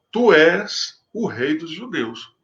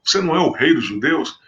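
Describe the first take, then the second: First: Tu és o rei dos judeus said slow as a flat statement, falling at the end; statement tune. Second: Você não é o rei dos judeus asked with a rising question tune. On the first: Pilate stating tu és o rei dos judeus to Jesus, falling tune. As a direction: make tu és o rei dos judeus an affirmation, no question. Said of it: "não colocou a interrogação". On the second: The other translations have Pilate ask Jesus, rising question. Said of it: "como se fosse uma pergunta". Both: Shown as a demonstration.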